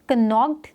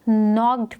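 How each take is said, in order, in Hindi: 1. शब्द की शुरुआत k ध्वनि से होती है। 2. शब्द की शुरुआत n ध्वनि से होती है। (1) "कनॉक्ड नहीं पढ़ेंगे" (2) "हम इसको नॉक्ड पढ़ रहे हैं"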